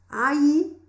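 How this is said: The double L sounds like a 'y' sound. "estou tentando pronunciar como o personagem, que esses dois L's é como se fosse é, um L H ou dois Is no português"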